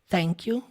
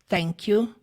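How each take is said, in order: Both takes have the same delivery.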